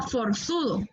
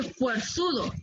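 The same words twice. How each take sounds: First: "forzudo" with a plain o; careful "forzudo" without a glide; correct forzudo. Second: "fuerzudo" with a ue glide; "fuerzudo" built on fuerza; wrong forzudo. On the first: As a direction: model "forzudo", starting for-. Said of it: "sino forzudo". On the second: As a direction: show the faulty "fuerzudo", starting fwer-. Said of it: "la forma correcta de decir". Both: Shown as a demonstration.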